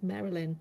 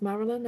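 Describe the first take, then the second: First: Marilyn said as "MERR-uh-lin"; Australian-style pronunciation. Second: Said in the usual way. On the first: Retold or imitated. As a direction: say Marilyn with an "e" as in merry. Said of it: "she says it in an Australian accent". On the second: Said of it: "I thought it was Marilyn".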